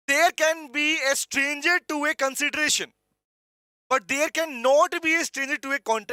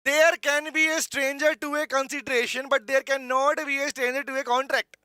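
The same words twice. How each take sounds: First: Said in the usual way. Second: Slow English line with a South Indian lilt; South Indian accent. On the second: Real, not acted. Teacher reading the legal line to students, South Indian accent. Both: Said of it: "south Indian accent आ गया दोबारा से".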